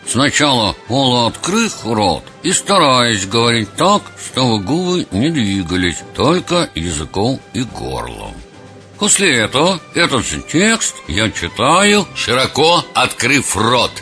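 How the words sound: It is spoken with lips barely moving.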